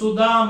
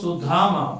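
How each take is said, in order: First: The middle d sound is unaspirated. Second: The middle d sound is aspirated. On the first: It names the garland maker. "ಇದು ಅಲ್ಪ ಪ್ರಾಣ" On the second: It names a different person, Kuchela. "ಅದು ಮಹಾಪ್ರಾಣ"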